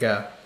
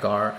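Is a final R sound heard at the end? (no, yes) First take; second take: no; yes. First: The word ends on the vowel, without R. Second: The word ends with an audible R sound. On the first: The speaker calls it right. "you mm. say it like ga" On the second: The speaker calls it wrong. "You don't get that gar"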